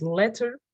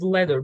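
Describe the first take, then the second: First: "letter" with a crisp T in the middle; clear T. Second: "letter" said like "ledder". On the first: Teacher showing what to avoid, "letter" with full T. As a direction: sound the T fully in "letter". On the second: Teacher showing the easier way, "letter" with a D sound. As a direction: soften the T in "letter" to a quick D. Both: Shown as a demonstration. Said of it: "Pronouncing T's as D's".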